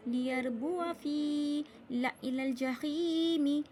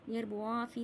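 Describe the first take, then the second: First: "लियरबुआ फी" chanted slowly with short wa; silent alif. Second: "लियरबुआ फी" spoken with long waa; wrongly stretched alif. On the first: Teacher showing correct reading, slow chant with short "ला". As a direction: recite "लियरबुआ फी ला इलल जहीमी" slowly, keeping wa and la short. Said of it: "यहाँ भी अलिफ को नहीं पढ़ा". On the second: Teacher showing the wrong reading, "लियरबुआ फी" with long waa. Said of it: "लियरबुआ फी नहीं कहा". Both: Shown as a demonstration.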